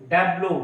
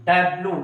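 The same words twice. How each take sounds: Both takes have the same delivery.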